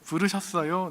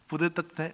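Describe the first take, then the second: First: It is said in a plain adult voice. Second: It is said with a lisping, childlike voice. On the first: "제 귀여운 건 안 됩니다" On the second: "좀 혀 짧은 발음이었겠죠. 어린 아이였으니까"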